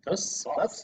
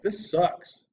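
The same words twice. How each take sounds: First: It is said in a Beavis and Butthead voice. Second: It is said in a normal voice.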